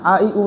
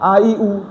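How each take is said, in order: First: The vowels are said softly and lightly. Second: The vowels are said softly and lightly.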